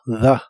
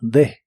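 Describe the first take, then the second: First: The vowel is a soft 'a' sound. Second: The vowel is not a soft 'a' sound. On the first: The word is said on its own. "Si pronuncias la primera palabra sola, suena como the, con una A suave" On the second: The word is joined to the next word. "si la juntas con la siguiente palabra, que es lo más común, casi siempre va a sonar como the"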